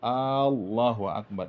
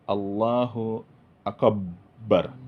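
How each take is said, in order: First: The first vowel of Allah is drawn out long. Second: The b sound is doubled and held long. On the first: "Kalau dipanjangkan alif Allah itu ... itu salah" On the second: "tak boleh dibaca tasdid banyak itu"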